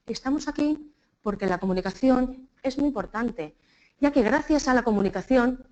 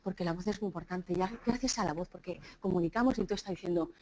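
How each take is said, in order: First: Halting speech chopped by long pauses; politician's pausing. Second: Low, soft monotone drone; dull monotone speech. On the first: Retold or imitated. Teacher imitating how politicians speak, over-paused. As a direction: stop every few words like a politician. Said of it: "como hacen nuestros políticos". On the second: Shown as a demonstration. Speaker showing listeners how a dull talk loses them, monotone. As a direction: drone it quietly on one low note.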